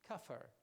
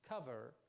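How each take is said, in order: First: The middle consonant is a voiceless f sound. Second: The middle consonant is a voiced v sound. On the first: The speaker calls it wrong. "he will say kafar" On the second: The speaker calls it right. "instead of saying cover"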